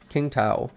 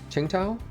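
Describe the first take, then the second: First: The name begins with a hard k sound. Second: The name begins with a ch-like sound. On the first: The speaker calls it wrong. "I forgot that that's how you say Qing, not King" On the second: The speaker calls it right. "Or is it like Qingtao?"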